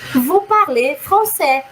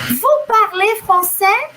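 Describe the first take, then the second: First: It has the tune of a statement. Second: It has the tune of a question. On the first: The speaker is stating that you speak French. "eu estou afirmando" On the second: The speaker is asking whether you speak French. "você fala francês?"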